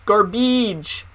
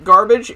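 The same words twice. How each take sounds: First: "Garbage" with a long ee in the second syllable; imitating "Garbage" said as gar-BEEDGE; odd E sound. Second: Said in the usual way. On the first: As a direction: stretch the end of "Garbage" to "-beedge". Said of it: "she would say". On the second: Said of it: "she said her E's weirdly".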